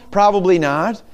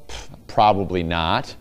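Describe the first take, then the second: First: Said in the usual way. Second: Low, scoffing brush-off after a "Pff"; dismissive scoff. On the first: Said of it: "my rival town?". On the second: Shown as a demonstration. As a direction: shrug off the rival town with a sniff. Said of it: "anything good come out of Saint Paul?".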